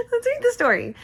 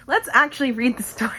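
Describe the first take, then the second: First: High squeal straight out of a laugh; giggly, high-pitched restart. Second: Said in the usual way. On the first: Real, not acted. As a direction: say it high through leftover giggles. Repeats it straight after laughing.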